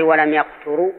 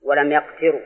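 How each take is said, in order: First: يقتروا read yaqturū; three-letter verb reading. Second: يقتروا read yaqtirū; kasra on the ta. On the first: Teacher shows the three-letter form, يقتروا as yaqturū. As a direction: say يقتروا with "ya" first and "tu" after. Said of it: "في الثلاثي". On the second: Teacher shows the second reading, يقتروا as yaqtirū. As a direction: say يقتروا with "ya" first and "ti" after. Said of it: "قراءة ثانية بكسر التاء". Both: Shown as a demonstration.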